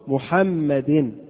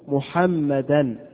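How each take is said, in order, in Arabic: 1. تنتهي الكلمة بحركة الكسرة. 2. تنتهي الكلمة بصوت an. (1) "جاءت مكسورة محمد" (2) "جاءت منصوبة محمدا"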